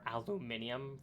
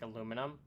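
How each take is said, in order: First: It is said with five syllables, British style. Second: It is said with four syllables, North American style. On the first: "aluminium for maybe the European" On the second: "that's what we do here in like Canada"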